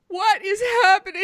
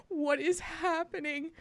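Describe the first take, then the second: First: Laughing. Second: Said in the usual way. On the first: Retold or imitated. Repeated, now laughing.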